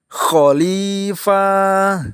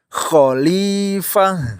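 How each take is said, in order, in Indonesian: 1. Vokal akhirnya dibaca panjang. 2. Vokal akhirnya tetap dibaca pendek. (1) "salah lagi khalifah, dipanjangin" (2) "yang benar khalifah"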